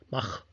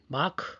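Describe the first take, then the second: First: The word ends in a breathy kh sound. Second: The word ends in a hard k sound. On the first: This is the original German way. "원래 독일 저쪽이겠죠" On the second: This is how Americans say it. "미국에서는 마크"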